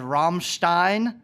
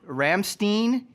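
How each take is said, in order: First: The name is said with a German pronunciation. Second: The name is said with an American pronunciation. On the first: It sounds powerful. The speaker calls it right. "sounds very powerful in German" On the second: It seems wrong for the name. The speaker calls it wrong. "which seems way too American"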